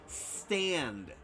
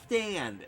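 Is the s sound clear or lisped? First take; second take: clear; lisped. First: The s is made with the teeth together. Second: The s is lisped with the tongue. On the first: The speaker calls it right. "That's how you speak" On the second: The speaker calls it wrong. "It's not stand. It's not like that"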